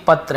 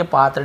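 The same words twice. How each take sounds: First: "पत्र" with a short first vowel. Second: "पात्र" with a long open aa; long vowel, mistaken reading. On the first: ("पत्र" में छोटा अ) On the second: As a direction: stretch the first vowel in "पात्र". ("पात्र" में लंबा आ) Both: Shown as a demonstration. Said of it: "पात्र नहीं".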